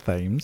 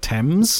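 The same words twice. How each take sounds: First: The name is pronounced a non-British way. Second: The name is pronounced the British way. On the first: "I prefer that pronunciation, Thames" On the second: "In this country, we pronounce it Thames"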